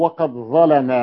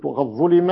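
First: "ظلم" as ẓalamaa with a stretched ending; all a-vowels on "ظلم", last one held; active vowelling. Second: "ظلم" as ẓulima; u then i on "ظلم"; passive vowelling. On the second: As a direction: read "ظلم" as passive ẓulima, short ending. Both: Shown as a demonstration. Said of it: "معنى كلمة".

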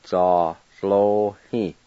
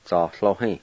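First: "Za lo hi" very slow, every syllable stretched; slow model word. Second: Said in the usual way. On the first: Shown as a demonstration. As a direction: drag out "Za lo hi" for the class. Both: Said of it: "I'll go back and pronounce them".

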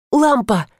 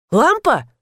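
First: Said in the usual way. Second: "Лампа" with pitch swooping high, questioning; checking question. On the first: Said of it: "ответила я". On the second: A narrator's reading. Husband checking it's his wife, "Лампа" as a high-swung question. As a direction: ask "Лампа" incredulously, pitch arching up and down. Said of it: "уточнил муж".

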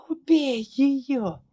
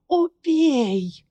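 First: High, slow rasping plea; hoarse plea. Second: High, louder rasping cry; hoarse shout. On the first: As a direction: beg hoarsely, drawing it out. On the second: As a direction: rasp it out loud, desperate. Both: Acted. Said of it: "прохрипела Ларри".

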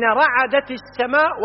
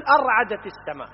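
First: Slow, emphatic رعدت starting straight on RA; correct form without hamza. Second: أرعدت with an added a-, pitched up; wrong form with hamza. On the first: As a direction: say رعدت slowly, no leading a-. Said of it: "هنا يريد منا أن نفرق". (نطق رعدت ببطء بلا همزة في أولها) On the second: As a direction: begin أرعدت on a glottal AR-. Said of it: "غلط". (نطق أرعدت بهمزة زائدة في أولها) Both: Shown as a demonstration.

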